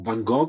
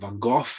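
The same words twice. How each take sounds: First: The name is said in an Italian accent. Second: The name is said in a British accent. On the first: "as we say in Italian" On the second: "as you say in British English"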